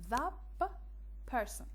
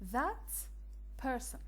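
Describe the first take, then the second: First: The first word ends with a p sound. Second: The first word ends with a t sound.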